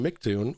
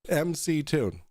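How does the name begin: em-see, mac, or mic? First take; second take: mic; em-see. First: The name begins with the syllable mic. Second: The name begins with the letters em and see. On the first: The speaker mocks this as a flat earther's version. The speaker calls it wrong. "If they call him Mictune or Mactune" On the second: The speaker treats this as the person's real name. The speaker calls it right. "his actual name, which is M C Tune"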